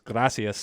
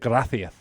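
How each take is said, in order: First: It is said with a Latin American 's' sound. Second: It is said with a Spanish lisped 'th' sound.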